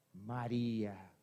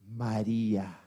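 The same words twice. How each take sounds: First: Much lower, slow and soft, the name drawn out; hushed, slow, reverent repetition of María. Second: Much lower, gentle calling of a name; Jesus gently calling María by her name; tender call. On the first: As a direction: let the name linger, hushed. Preacher repeats the name slowly. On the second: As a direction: say her name like someone who knows her. Jesus calls Mary by name. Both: Acted.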